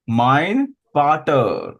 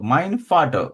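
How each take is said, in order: First: The final -er ending is clearly pronounced. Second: The final -er ending is almost dropped.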